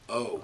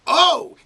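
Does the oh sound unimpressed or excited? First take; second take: unimpressed; excited. First: It sounds flat and unimpressed. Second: It sounds lively and impressed.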